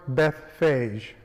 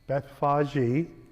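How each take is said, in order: First: The name ends without an 'ee' vowel sound. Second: The name ends with an 'ee' vowel sound. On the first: "I pronounce the city Bethphage"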